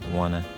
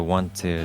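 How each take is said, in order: First: The words blend into one, dropping the t. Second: Both words are said fully with the t sound. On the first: "So the want to is wanna" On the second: "So the want to is wanna"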